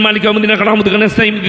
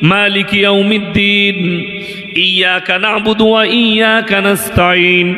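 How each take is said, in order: First: It is rushed and run together very fast. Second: It is recited slowly and clearly, word by word. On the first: The recitation cannot be followed by listeners. The speaker calls it wrong. "কিছু বুঝতে পারছেন কোথায় পড়ছি?" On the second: The recitation is calm and can be followed. The speaker calls it right. "মক্কার ইমামরাও তারাবি শোনায়"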